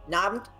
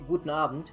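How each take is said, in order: First: The first word is swallowed down to its final sound. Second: Both words are pronounced clearly and fully.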